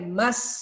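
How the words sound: It is called angrily with irritation.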